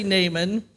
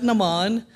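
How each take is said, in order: First: Naaman said as NAY-mun; "Naaman" as two syllables, NAY-mun; own pronunciation. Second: Naaman said as nuh-MAHN; "Naaman" as nuh-MAHN, weak first syllable; other reader's pronunciation. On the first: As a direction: say "Naaman" with a long "ay" and stress up front. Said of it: "Turner and I will disagree slightly on the pronunciation. I say". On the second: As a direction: say "Naaman" with stress on a long final "ahn". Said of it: "He's got". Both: Shown as a demonstration.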